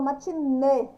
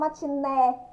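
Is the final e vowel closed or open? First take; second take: closed; open. First: The final e vowel is closed. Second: The final e vowel is open. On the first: The speaker calls it right. "eu falo matinê, ó, o nê. Acento circunflexo no é" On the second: The speaker calls it wrong. "Eu não falo matiné"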